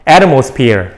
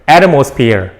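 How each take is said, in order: The two takes are said the same way.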